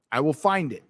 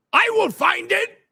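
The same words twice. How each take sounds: First: Said in the usual way. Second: Much higher, sing-song I will find it; high silly voice. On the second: Acted. Streamer promising viewer to find chat, high silly voice. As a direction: squeak the promise playfully.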